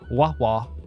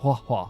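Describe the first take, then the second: First: It begins with a W sound. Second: It begins with an H sound. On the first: The speaker calls it wrong. "I'm doing a W sound" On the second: The speaker calls it right. "instead of a H"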